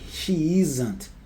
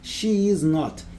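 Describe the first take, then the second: First: Is and not merge into one word, with a z sound. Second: Is and not are said as separate words.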